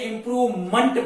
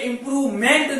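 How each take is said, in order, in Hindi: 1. अंत 'munt' जैसा सुनाई देता है, स्वर हल्का है। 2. अंत 'ment' जैसा सुनाई देता है, स्वर पूरा है। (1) "इंप्रूवमेंट पढ़ेंगे" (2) "जैसे इंप्रूवमेंट नहीं पढ़ेंगे"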